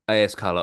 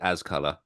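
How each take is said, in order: First: A and S are said as separate letters. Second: AS is said as the single word as. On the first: "is it A S color" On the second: "or is it as color?"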